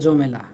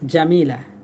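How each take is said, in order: First: The vowels shift to o and e, rurally. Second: The vowels are a and i, as standard. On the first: "গ্রামগঞ্জে বলে জমেলা" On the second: "মেয়েদের নাম থাকে জামিলা"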